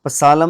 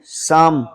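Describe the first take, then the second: First: पसालम with P and L both sounded; wrong pronunciation. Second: साम with silent P and L; correct pronunciation. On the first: Teacher warning against reading every letter, wrong pronunciation. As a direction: misread पसालम letter by letter, 'pa-saa-lam'. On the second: Teacher reading out the hymn word, correct pronunciation. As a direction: say साम as 'saam', one long syllable. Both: Shown as a demonstration. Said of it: "पसालम नहीं पढ़ना".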